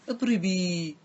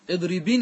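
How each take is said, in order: First: The word ends with a long i vowel. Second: The word ends with an n sound. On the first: The speaker stops after the word. "إذا وقفت احذف النون ورجع الياء" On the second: The word runs on into the following words. "هذا إذا وصلت"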